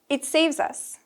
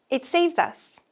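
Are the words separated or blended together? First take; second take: blended; blended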